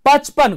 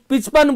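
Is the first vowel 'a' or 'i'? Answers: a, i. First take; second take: a; i. First: The first vowel is an 'a' sound. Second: The first vowel is an 'i' sound.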